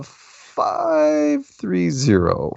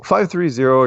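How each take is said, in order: First: Slow, stretched, higher announcer read of the digits; host drags out five three zero to the listeners, slow and stretched; drawn-out call-in number. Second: Said in the usual way. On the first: Real, not acted. Host announcing caller's area code.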